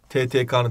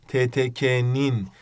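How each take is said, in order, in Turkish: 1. Ek kalın 'ı' ünlüsüyle söylenir. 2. Ek ince 'i' ünlüsüyle söylenir. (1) "skandaldır arkadaşlar. Yanlıştır" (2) "demeniz lazım"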